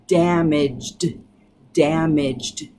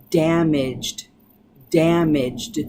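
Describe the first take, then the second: No difference in how they are said.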